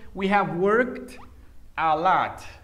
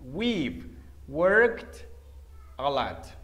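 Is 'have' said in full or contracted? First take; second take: full; contracted. First: The word have is said in full. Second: The word have is contracted to 've.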